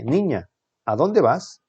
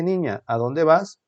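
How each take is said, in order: First: Drawn-out exclamation with swooping pitch, falling at the end; surprised exclamation. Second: Said in the usual way. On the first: Shown as a demonstration. Teacher reading the sentence with exclamation marks, surprised exclamation. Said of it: "la única que tiene signos de admiración". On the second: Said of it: "pero no tiene los signos de admiración".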